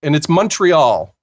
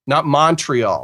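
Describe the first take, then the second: First: "Montreal" said the Canadian way, "Mun-tree-all"; slow, careful "Montreal" with a "mun" start and "all" ending. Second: "Montreal" said the American way, "Mahn-tree-all"; slow, contrasting "Montreal" with an open "mahn" start. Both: Shown as a demonstration.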